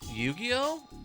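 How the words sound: The voice rises at the end like a question. The speaker is unsure what the game even is.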